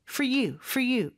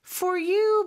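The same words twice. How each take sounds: First: For you run together fast, vowel of for reduced; quick reduced pronunciation. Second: Said in the usual way. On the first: Shown as a demonstration. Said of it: "그냥 빨리". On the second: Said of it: "for you 부분은 그냥".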